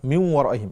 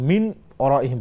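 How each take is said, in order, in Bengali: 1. 'ন' ধ্বনিটি গোপন থাকে, w-এর মধ্যে নাসিকায় মিশে যায়। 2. 'ন' ধ্বনিটি w-এর আগে পুরোপুরি স্পষ্ট করে উচ্চারণ করা হয়। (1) "এখানে নুনটা উচ্চারণ হলো না, ইখফা হলো" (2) "বলা যাবে না"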